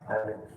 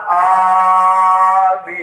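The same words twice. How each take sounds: First: It is said lazily, without energy. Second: It is said with lively enthusiasm.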